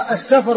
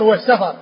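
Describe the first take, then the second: First: السفر as as-Safr; السفر closed f straight into r; sukun on the fa. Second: والسفر as was-Safar; والسفر with two short a vowels, sa-far; fatha on the fa. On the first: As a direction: say السفر with no vowel after f. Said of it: "بإسكان الفاء". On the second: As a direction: say والسفر with a after f. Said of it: "والسفر بفتحها". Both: Shown as a demonstration.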